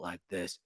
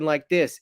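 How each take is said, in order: First: The voice is quiet and hushed. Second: The voice is loud and projected. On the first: "not like this" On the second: "You projected your voice. You're talking like this in a, you know, your regular voice"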